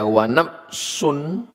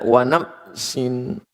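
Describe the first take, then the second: First: The second word ends with the vowel u. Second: The second word ends with the vowel i. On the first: It means 'and the soul'. "Kalau dibaca dia wa nafsun, artinya dan nafs" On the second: It is an oath: 'by the soul'. "kalau dibaca wa nafsin, merubah menjadi demi"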